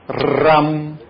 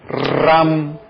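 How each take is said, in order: No difference in how they are said.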